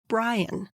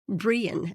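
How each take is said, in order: First: The name is said with English pronunciation. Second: The name is said with Danish pronunciation.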